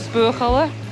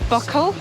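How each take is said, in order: First: The name is said longer, like 'boo-a-challa'. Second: The name is said short, like 'buckle'. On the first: The speaker calls it right. "I think it's Buachalla" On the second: The speaker calls it wrong. "It's not Buckle"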